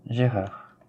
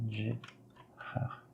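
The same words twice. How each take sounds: First: Said in the usual way. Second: Gérard whispered, much softer, no voice. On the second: Shown as a demonstration. Teacher whispers the name to herself, whispered. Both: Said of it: "G comme".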